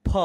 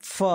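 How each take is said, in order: First: "फ" as "pha", from both lips; aspirated ph. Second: "फ" as "fa", teeth on lip; nukta f sound. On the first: Teacher contrasting the two letters, "फ" as pha first. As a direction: puff "फ" out as aspirated p. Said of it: "इन दोनों का एक साथ उच्चारण". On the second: Teacher contrasting the next letter, "फ" as fa. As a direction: say "फ" with a continuous f. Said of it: "अगला". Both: Shown as a demonstration.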